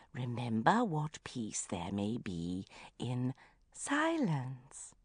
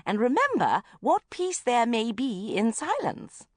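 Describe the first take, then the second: First: Very slow, much softer solemn intoning; slower, softer mantra. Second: Slow, solemn recital of a calm creed; serene recitation. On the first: Mother repeating her calm mantra down the phone, slow and hushed. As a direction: let each word drift out like meditation. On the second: Mother intoning calm advice to her daughter, solemn and slow. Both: Acted.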